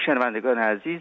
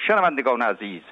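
First: It is delivered in a plain, talking manner. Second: It is delivered like a formal public oration. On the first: It speaks to listeners personally, as in conversation. The speaker calls it right. "ولی اگه آقای گرگین اینو میخواست بگه، گفت" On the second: It addresses listeners like a crowd in a hall. The speaker calls it wrong. "به صورت خطابه بود ... من الان اداشم در میارم برات دیگه. اینطوری بود رادیو"

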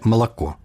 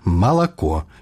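First: The unstressed vowels are weakened and reduced. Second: Every vowel is pronounced clearly and fully. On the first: The speaker calls it wrong. "як па-расейску" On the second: The speaker calls it right. "Кажам выразна"

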